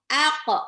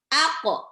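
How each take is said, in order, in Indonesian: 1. Pantulan q berakhir dengan bunyi seperti o. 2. Pantulan q berakhir dengan bunyi seperti o.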